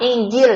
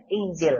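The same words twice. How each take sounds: First: Injil said with a j sound, the mistake to avoid; wrong Injil with j. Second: Inzil said with a clear buzzing z, not j. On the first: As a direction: show the wrong Injil, j instead of z. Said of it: "Jangan Injil". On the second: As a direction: say Inzil, the middle sound a z. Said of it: "ini pakai zai". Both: Shown as a demonstration.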